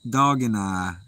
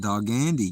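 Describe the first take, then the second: First: The ending sounds like two words, 'and I'. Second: The ending sounds like one word, 'Andy'. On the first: The speaker calls it right. "It's dog, dog and I" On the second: The speaker calls it wrong. "I was totally mispronouncing that"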